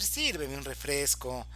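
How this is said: It is said in a gentle, polite tone. It is a request for a favor. "lo estamos pidiendo por las buenas"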